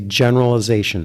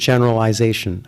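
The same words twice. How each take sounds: First: The word is said with an American pronunciation. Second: The word is said with a Canadian pronunciation. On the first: "I would say generalization" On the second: "I would not say the word generalization"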